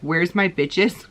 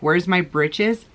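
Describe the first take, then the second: First: The last word is said without its r sound. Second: The last word is said with its r sound. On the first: This is how it came out without front teeth. "it sounded like she would say bitches" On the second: This is the word the child meant to say. "she was like"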